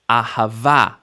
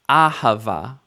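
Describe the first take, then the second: First: The stress falls on the last syllable. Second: The stress falls before the last syllable. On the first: The speaker calls it right. "stress at the end" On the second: The speaker calls it wrong. "not correct"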